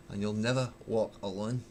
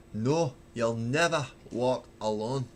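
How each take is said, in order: First: Put-on singing in Glaswegian accent. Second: Sung, slower, rising on "never" in mock Glasgow accent; sung, belt the last line again, Glasgow accent, stretching "never"; emphatic sung repeat in Glaswegian accent. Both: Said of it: "the Glaswegian accent doesn't do well for singing".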